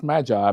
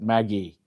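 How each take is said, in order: First: It is said with the standard dictionary pronunciation. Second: It is said with an English-style pronunciation. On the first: "Google actually says it's pronounced Magi" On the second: "the English pronounce it Maggie"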